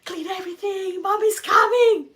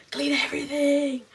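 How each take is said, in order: First: Very high, very loud frantic shriek; panicked shout. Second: High, louder panicked order; freaking out. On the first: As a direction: scream it as the sister hears mom's car. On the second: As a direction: blurt it in a rising panic as the sister. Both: Retold or imitated. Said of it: "completely freaking out".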